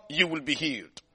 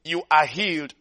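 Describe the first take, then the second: First: "will be" said quietly as the rejected version; "will be" tossed off softly; the wrong tense, softer. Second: "are" punched to mark present tense; "You ARE healed" with weight on "are"; stress on are. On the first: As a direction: drop "You will be healed" soft and low. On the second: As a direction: lean on "are" as already true. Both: Shown as a demonstration.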